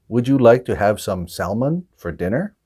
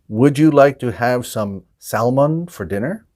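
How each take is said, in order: The two takes are said the same way.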